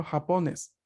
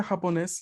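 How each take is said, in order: First: Japones stressed on the middle -po-; ja-PO-nes, lean on the middle syllable. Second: Japonés with the stress on the final -nés; ja-po-NÉS, hit the last syllable. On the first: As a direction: say japones as if it had no written accent, stress the centre. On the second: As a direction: say japonés with the accent on the end. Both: Shown as a demonstration. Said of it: "El acento iría a la sílaba del medio".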